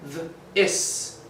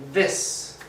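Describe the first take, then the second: First: "Th-, is" split into its two sounds; sounded out. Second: "This" said as one smooth word; blended word. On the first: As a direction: stretch "Th-" then say "is" apart. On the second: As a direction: join the sounds into "This". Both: Shown as a demonstration. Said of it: "Just like".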